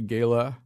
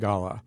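First: The word is said the American way. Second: The word is said the English way. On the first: "Americans say gala" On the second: "English say gala"

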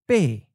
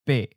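First: The syllable falls from a high pitch. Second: The syllable is mid pitch and cut short. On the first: "In the common southern accent, the eighth tone is often of a high falling tone"

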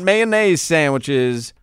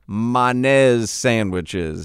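First: Mayonnaise has its usual standard pronunciation. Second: Mayonnaise has a clipped Louisiana-style pronunciation. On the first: The speaker calls it wrong. "Not mayonnaise sandwiches" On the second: The speaker calls it right.

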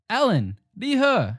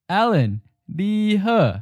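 First: The phrase is said at normal speed. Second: The phrase is said slowly.

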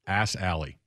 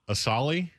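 First: It is said as two words, 'ass alley'. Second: It is said as one smooth surname. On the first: This is a joking reading of the spelling. "but it's spelled A-S-S-A-L-L-E-Y" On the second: This is how the name is actually said. "Iowa State's kicker's last name is Assali"

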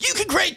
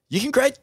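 First: It is said with very high, excited energy. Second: It is said with only mild excitement. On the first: The speaker calls it right. "no, man, way more pumped" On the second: The speaker calls it wrong. "And he'd go"

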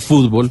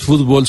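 First: The stress is on the first syllable. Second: The stress is on the last syllable. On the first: This is the form the Colombian Academy wanted. The speaker calls it right. "sino fútbol" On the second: This is the form the dictionary adopted after the protest. The speaker calls it wrong. "que dice no es fútbol"

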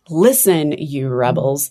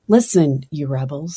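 First: It is exclaimed forcefully, with authority. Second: It is said calmly, without force.

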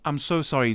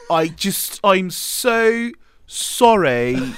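First: It is said in the speaker's usual accent. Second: It is said in a put-on British accent.

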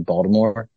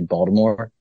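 First: It is said the Maryland way, with a D. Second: It is said the Maryland way, with a D.

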